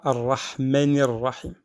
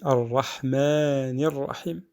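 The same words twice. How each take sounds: First: The vowel in Rahman is short and clipped. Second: The vowel in Rahman is drawn out longer. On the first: The speaker calls it wrong. "On ne dit pas ar-Rahmanir Rahim" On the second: The speaker calls it right. "On dit ar-Rahmanir Rahim"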